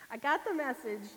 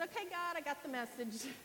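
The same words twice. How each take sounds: First: Laughing at the obvious sign; amused, laughing repeat. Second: Said in the usual way. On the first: Real, not acted. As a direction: repeat it through a laugh, louder.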